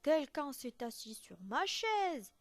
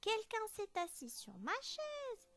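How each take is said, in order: First: It is said in a very big, deep voice. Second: It is said in a tiny, small voice.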